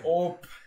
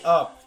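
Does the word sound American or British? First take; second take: British; American. First: The vowel is rounded like an O sound. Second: The vowel is said the plain American way. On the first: "They say op" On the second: "they don't say up"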